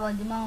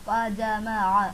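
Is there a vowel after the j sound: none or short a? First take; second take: none; short a. First: The j is followed directly by the next consonant. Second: The j is followed by a short a vowel. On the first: The speaker calls it wrong. "നമ്മൾ വജ്മഅ വജ്മഅ ഒന്നും പറയാം" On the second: The speaker calls it right. "Full ഫതാണ്ട്"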